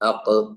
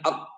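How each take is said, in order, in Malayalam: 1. അവസാന വ്യഞ്ജനം ചെറിയൊരു കുതിപ്പോടെ വിടുന്നു. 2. അവസാന വ്യഞ്ജനം ഒട്ടും വിടാതെ പിടിച്ചു നിർത്തുന്നു. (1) "ഖാഫ് സുക്കൂൻ" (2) "അവിടെ പിൻവലിക്കാതിരുന്നാൽ അക് എന്നേ വരുള്ളൂ"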